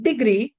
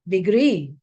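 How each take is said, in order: First: Degree wrongly stressed on DE; stress on first syllable. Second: Degree with GREE stressed, long and falling; stress on last syllable. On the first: Teacher showing the wrong way, stress on DE in degree. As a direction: hit DE in degree, GREE left weak. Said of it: "It's not degree". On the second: Teacher correcting learners, stress on GREE in degree. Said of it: "the stress is on the last syllable". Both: Shown as a demonstration.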